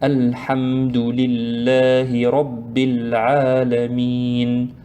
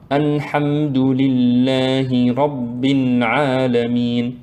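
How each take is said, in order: First: The L sound is plain, without nasal air. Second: The L sound is nasalized like an N. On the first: The speaker calls it right. "sans faire intervenir le nez" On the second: The speaker calls it wrong. "on ne dit pas"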